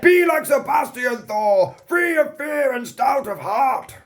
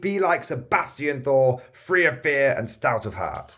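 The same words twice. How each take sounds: First: It is said dramatically, like the Commissar. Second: It is said plainly, in his own voice.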